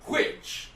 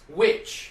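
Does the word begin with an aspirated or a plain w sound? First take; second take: aspirated; plain. First: It starts with a breathy, aspirated w sound. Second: It starts with a plain w sound.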